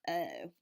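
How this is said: The vowel is made at the front of the mouth. "the Maryland way, you pronounce it in the very front of your mouth"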